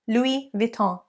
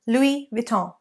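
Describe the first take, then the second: First: The final n sound is dropped. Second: The same.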